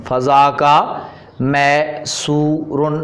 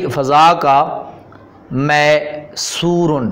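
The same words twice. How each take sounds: The two takes are said the same way.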